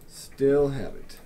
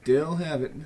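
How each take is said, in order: First: Drawn out, louder; slow, savoring. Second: Said in the usual way. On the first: Shown as a demonstration. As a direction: stretch each word with satisfaction.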